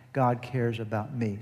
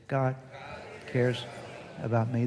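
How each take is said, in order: First: Said in the usual way. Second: Each word set apart for the congregation to echo; slow spaced call-and-response. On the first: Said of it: "I want you to say with me". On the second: Shown as a demonstration. Pastor leading the congregation in a slow spoken affirmation. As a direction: lead the room through it word by word. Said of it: "Say it".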